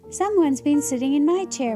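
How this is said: Mommy Bear's soft, low exclaiming voice.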